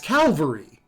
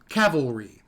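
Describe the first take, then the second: First: The word begins with a 'cal' sound. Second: The word begins with a 'cav' sound. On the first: The speaker calls it right. "But it's Calvary" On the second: The speaker calls it wrong. "everyone I ever heard growing up always said cavalry"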